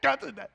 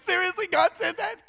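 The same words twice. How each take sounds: First: Said in the usual way. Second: High, louder astonished question; can't believe what he just heard; stunned disbelief. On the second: Retold or imitated. Retelling how God spoke to him, stunned and high. Stunned reaction to God's message.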